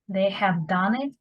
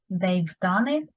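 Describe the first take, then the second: First: "Have" is said as a separate full word. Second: "Have" is shortened and joined onto "they".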